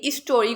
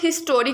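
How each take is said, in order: First: The h sound at the start is dropped. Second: The h sound at the start is pronounced. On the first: "कुछ लोग इसका एच भी silent रखते हैं" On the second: "कुछ लोग इसको हिस्टोरिक बोलते हैं"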